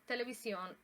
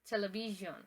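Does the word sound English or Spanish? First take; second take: Spanish; English. First: It is pronounced the Spanish way. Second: It is pronounced the English way. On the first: "in Spanish" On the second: "in English"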